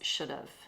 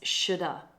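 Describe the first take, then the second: First: A British accent, with the second word kept. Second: An American accent, reduced to one run-together word. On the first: "For the British" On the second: "For the Americans"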